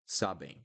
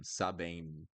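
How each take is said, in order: First: Sabem falling, no closed M; open nasal ending. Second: Sabem with lips shut on M; wrong closed M. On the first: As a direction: leave the mouth open at the end of sabem. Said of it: "and leave it there". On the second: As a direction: close the mouth on the final M of sabem. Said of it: "You don't close your mouth". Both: Shown as a demonstration.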